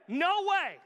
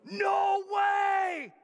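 First: It is said as a flat, firm refusal. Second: It is said with excited, shocked amazement.

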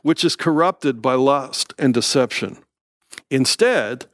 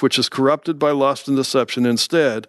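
First: A pause separates instead from the phrase before. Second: Instead runs on with no pause before it.

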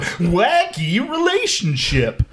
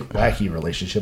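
First: The phrase is said in a zany, exaggerated voice. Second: The phrase is said in a plain, ordinary voice. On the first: The speaker calls it right. "I have to go" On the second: The speaker calls it wrong. "I can't say wacky relationship"

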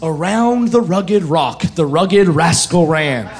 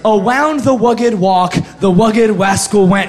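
First: The R sounds are pronounced as clear R's. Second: The R sounds are pronounced like W's. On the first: The speaker calls it right. "I learned how to say my R's, and learned my drills" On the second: The speaker calls it wrong. "how it sounded the first time"

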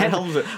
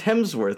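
First: The name is said with an added L sound. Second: The name is said without an L sound. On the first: The speaker calls it wrong. "not Hemsworth ... Do you keep saying Helm?" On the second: The speaker calls it right. "his name's Hemsworth"

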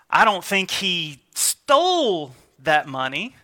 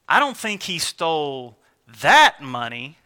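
First: The stress falls on the word 'stole'. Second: The stress falls on the word 'that'. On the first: He took the money but did not mean to steal it. "he may have it, but maybe it was laying out on the counter and he grabbed it to keep it set aside" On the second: He steals money, but not this particular money. "He might be out there stealing money, but"

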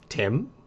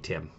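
First: The voice rises on the name. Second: The voice falls on the name.

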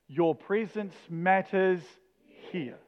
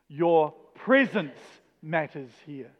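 First: The stress falls on the word 'here'. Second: The stress falls on the word 'presence'. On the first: "each time we're going to put the emphasis on the next word" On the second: "each time we're going to put the emphasis on the next word"

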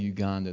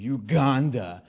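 First: It is said plainly, without local lively emphasis. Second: It is said the local way, with lively emphasis. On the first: "they don't say Uganda" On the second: "They say Uganda"

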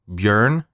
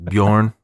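First: The vowel sounds closer to a 'u'. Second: The vowel sounds like an American 'o'. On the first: The speaker calls it right. "so it's closer to a U" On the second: The speaker calls it wrong. "I've been saying it wrong for all this time?"

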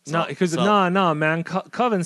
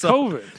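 First: The word rhymes with 'oven'. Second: The word does not rhyme with 'oven'. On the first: "Coven sounds like oven" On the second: "It's Coven"

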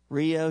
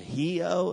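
First: Rio is said with an English R sound. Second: Rio is said with a Portuguese H-like sound.

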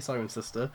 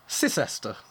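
First: It begins with the full syllables 'siren'. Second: It begins with a shortened 'sis' sound. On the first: This is the speaker's own way of saying it. "So I'd say Sirencester" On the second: This is how some other people say it. "Other people say, you're going to hate this, Sisester. So you don't even say the siren"

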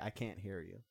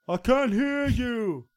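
First: It is said softly. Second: It is said loudly.

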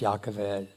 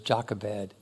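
First: The name is said with a Hebrew pronunciation. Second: The name is said with an English pronunciation. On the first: The speaker calls it right. "but it's Yochevedt" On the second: The speaker calls it wrong. "we always pronounce it in English"

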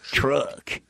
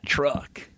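First: It is said in an exaggerated redneck accent. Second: It is said in the speaker's plain voice.

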